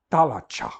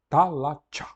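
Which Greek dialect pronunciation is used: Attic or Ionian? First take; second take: Attic; Attic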